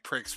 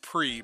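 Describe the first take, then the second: First: The word ends in a 'ks' sound. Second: The word ends in a long vowel sound. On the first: "I decided to say pricks because he's a prick" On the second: "you pronounce it pre"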